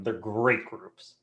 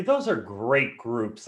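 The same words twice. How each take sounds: First: Slow, softer, with a falling stress on "great"; emphasis on great. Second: Slow, leaning on "those" with extra weight; emphasis on those. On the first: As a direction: land firmly on "great". Repeating praise of partners. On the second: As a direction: stretch out "those" to vouch for them. Praising partner groups. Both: Real, not acted.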